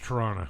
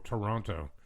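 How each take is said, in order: First: The name is said the local Southern Ontario way. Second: The name is said the way outsiders say it. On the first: The speaker is from the area. The speaker calls it right. "It's Toronto" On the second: The speaker is not from the area. The speaker calls it wrong. "when somebody is like not from here when they go Toronto"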